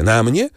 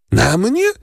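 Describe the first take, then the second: First: Said in the usual way. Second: Shocked that it's her; zdumiona, wysokie "Na mnie?"; astonished. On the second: A narrator's reading. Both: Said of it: "zdumiała się Valentin".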